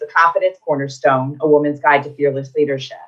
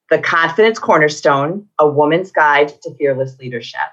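First: The title is said at normal pace. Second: The title is said more slowly.

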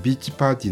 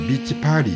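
First: The middle consonant is a clear t sound. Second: The middle consonant is a flapped r-like sound.

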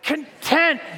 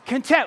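First: The word is said with more passion and energy. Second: The word is said with less passion and energy. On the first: The speaker calls it right. "A little bit more passion" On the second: The speaker calls it wrong. "say it with me, come on"

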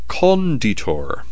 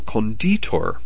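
First: The stress is on the first syllable. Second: The stress is on the second syllable. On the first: "with the emphasis on the first syllable" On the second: "the emphasis is on the second syllable"

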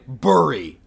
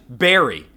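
First: The first vowel sounds like in 'burr'. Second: The first vowel sounds like in 'bear'. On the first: The speaker calls it wrong. "not fucking burry" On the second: The speaker calls it right. "The word berry is pronounced berry slash berry"

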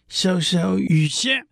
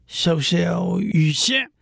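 No difference in how they are said.

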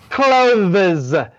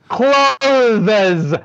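The two takes are said the same way.

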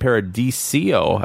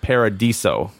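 First: An extra 'ee' sound comes before the final syllable. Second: No extra 'ee' sound comes before the final syllable. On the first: The speaker calls it wrong. "I think I was saying Paradiso" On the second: The speaker calls it right. "there's no I. So just Paradiso"

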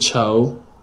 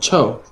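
First: The pitch rises on the syllable. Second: The pitch falls sharply on the syllable. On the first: It means to worry, among other meanings. The speaker calls it wrong. "But you said cho" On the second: It means stinky. The speaker calls it right. "Fourth tone"

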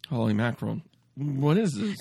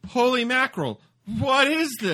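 First: It is delivered in a subdued, restrained way. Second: It is delivered with much more intensity.

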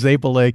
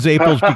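First: The word ends with a final vowel sound. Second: The word ends without a final vowel sound. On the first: This is the Sicilian way of saying it. "it's Zapele in Sicily" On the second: This is the regional American way of saying it. "that's how they pronounce it in Rhode Island"

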